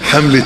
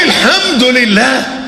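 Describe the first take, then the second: First: It is rushed and slurred into one word. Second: It is said slowly with every word clear. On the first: It is said mechanically, without feeling. The speaker calls it wrong. "بنقولها ازاي؟" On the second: It is said sincerely, as real thanks. The speaker calls it right. "لا لا لا لا لا لا لا لا لا قل"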